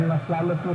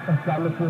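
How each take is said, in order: Both takes have the same delivery.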